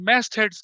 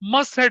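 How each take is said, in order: First: The first vowel is an open 'a' sound. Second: The first vowel is a short 'uh' sound. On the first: The speaker calls it right. "मैस्ट heads कहते हैं इसको" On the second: The speaker calls it wrong. "मस्ट head नहीं है"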